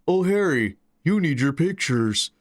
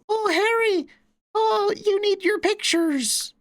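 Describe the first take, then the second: First: It is said in an older man's voice. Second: It is said in a young boy's voice.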